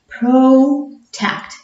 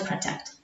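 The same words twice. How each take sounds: First: The first vowel is long, like its letter name. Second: The first vowel is short. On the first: The speaker calls it right. "That is why it is pronounced as a long sound" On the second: The speaker calls it wrong. "not to protect"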